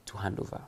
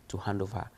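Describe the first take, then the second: No difference in how they are said.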